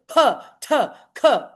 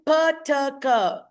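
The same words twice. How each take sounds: First: "pa, ta, ka" each with a strong puff; aspirated plosives. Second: "pa, ta, ka" as bare letter sounds; name "pa, ta, ka" without a puff of air; plain plosives. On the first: Teacher showing word-initial plosives, aspirated. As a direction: burst out "pa", "ta", "ka" separately with aspiration. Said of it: "it is called aspiration". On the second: Teacher naming the three plosives, unaspirated. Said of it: "who are aspirated at the beginning". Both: Shown as a demonstration.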